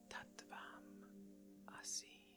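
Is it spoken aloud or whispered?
whispered. It is whispered without full voice.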